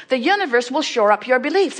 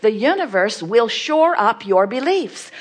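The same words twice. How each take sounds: First: "beliefs" stressed hardest, a touch higher; emphatic repeat. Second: "shore" punched hardest, steady emphatic read; emphatic stress. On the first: Repeating the point to listeners, "beliefs" stressed. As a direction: land the weight on "beliefs". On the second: Telling listeners emphatically, "shore" stressed hardest. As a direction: lean on "shore" to stress the point. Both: Shown as a demonstration. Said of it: "in a really emphatic way".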